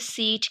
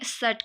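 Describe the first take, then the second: First: It has a long 'ee' vowel. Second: It has a central 'u'-like vowel. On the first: "Australian में देखें तो वो उसमें हम क्या कहेंगे, सीट कहेंगे" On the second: "न्यूजीलैंड है तो उसमें सट कहते हैं"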